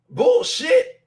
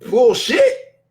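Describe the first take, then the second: First: Much higher, rising shriek of "Bullshit"; shrieking, incredulous "Bullshit"; squealed disbelief. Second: A sharp rising scoff; incredulous, rising "bullshit"; scoffing exclamation. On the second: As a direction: call it out in disbelief. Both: Real, not acted. Rejecting the money excuse.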